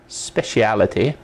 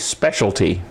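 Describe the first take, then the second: First: It is said the British way, with five syllables. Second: It is said the American way, with three syllables.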